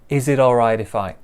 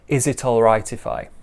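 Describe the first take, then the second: First: The T sounds are soft, like a quick D. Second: The T sounds are crisp and strongly pronounced.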